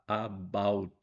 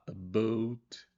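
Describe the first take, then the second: First: The word is said carefully and clearly articulated. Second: The word is said the way Canadians say it.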